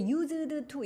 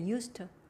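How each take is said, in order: First: The two words are said separately and fully. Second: The two words are run together and reduced. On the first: The speaker calls it wrong. "이렇게 발음 안 해요" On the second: The speaker calls it right. "그냥 used 이렇게 발음해"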